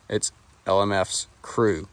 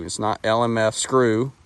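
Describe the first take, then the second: First: "L M F's crew" with the S kept on "F's", then "crew"; slow "L M F's", small break, then "crew"; right split. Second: "L M F screw" with the S joined to "screw"; wrong split. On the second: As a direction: say "L M F screw" as if the last word were "screw". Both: Shown as a demonstration.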